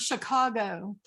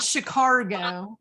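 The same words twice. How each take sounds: First: The word is said without an R sound. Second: The word is said with an R sound inside. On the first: The speaker calls it right. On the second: The speaker calls it wrong.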